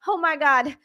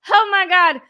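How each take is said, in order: First: Said in the usual way. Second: Louder, higher cry of disbelief; real astonished outburst; amazed exclamation. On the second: Real, not acted. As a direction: burst out, thrilled and stunned. Repeats it, more amazed.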